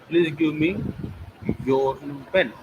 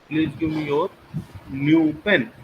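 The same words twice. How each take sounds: First: The word me carries the main stress. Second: The word your carries the main stress. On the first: The pen should go to this person only. "me, not to others" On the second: It must be the listener's pen, nobody else's. "Your, not any others"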